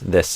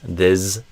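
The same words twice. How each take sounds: First: The word ends with a hissing s sound. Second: The word ends with a buzzing z sound. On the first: The speaker calls it right. "But I would do an S" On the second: The speaker calls it wrong. "I think you did maybe a Z at the end of this"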